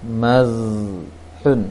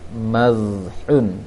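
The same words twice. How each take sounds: Both takes have the same delivery.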